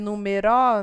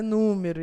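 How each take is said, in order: First: The stress is on the last syllable. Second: The stress is on the first syllable. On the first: The speaker calls it wrong. "Se fosse oxítona, ia ser numeró" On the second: The speaker calls it right. "proparoxítona"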